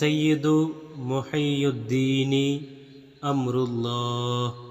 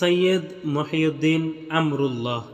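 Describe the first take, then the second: First: The words carry extra final vowels, Arabic style. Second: The words drop final vowels, Bengali style. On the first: "এতক্ষণ আপনারা আরবি উচ্চারণ শুনেছেন।" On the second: "প্রচলিত বাংলা উচ্চারণ"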